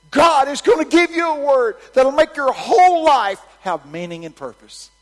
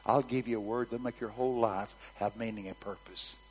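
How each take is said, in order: First: High, booming proclamation, easing at the very end; shouted prophecy. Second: Said in the usual way. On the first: Retold or imitated. Preacher promising a granny a word from God, shouted prophecy. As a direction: declare it to the whole coliseum.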